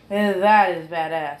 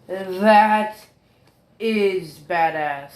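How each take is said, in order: First: That is badass, with "That" hit loudest at the start; stress on THAT. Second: That is badass, slow, with "is" drawn out and weighted; stress on IS. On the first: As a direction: punch "That" in "That is badass". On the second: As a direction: lean hard on "is" in "That is badass". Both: Real, not acted.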